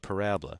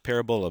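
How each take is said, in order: First: The stress is on the second syllable. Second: The stress is on the first syllable. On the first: The speaker calls it right. "but parabola" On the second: The speaker calls it wrong. "not parabola"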